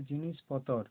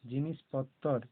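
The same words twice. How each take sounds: First: জিনিসপত্তর said as জিনিসপতর, with one short ত; single ত. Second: জিনিসপত্তর with a long, firm ত্ত; doubled ত. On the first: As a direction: say জিনিসপত্তর without doubling the ত. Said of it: "যদি শুধু ত থাকতো তাহলে হতো". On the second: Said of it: "তয়ে ত আছে ওই জন্য পত্তর". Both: Shown as a demonstration.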